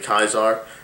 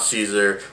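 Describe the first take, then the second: First: The name starts with a hard K sound. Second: The name starts with a soft S sound. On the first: This is how it was said in his time. The speaker calls it right. "it's actually Kaiser" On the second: This is a later French-style pronunciation. The speaker calls it wrong. "not Caesar"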